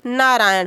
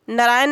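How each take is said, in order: First: नारायण with long first vowel, naa-raa-yan; correct form. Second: नारायण with short first vowel and plain n, na-raayan; wrong form. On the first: Teacher giving students the proper name, correct form. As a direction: lengthen the opening naa of नारायण. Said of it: "बल्कि नारायण होगा". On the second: Teacher showing students the faulty name, wrong form. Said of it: "नारायण नहीं बल्कि". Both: Shown as a demonstration.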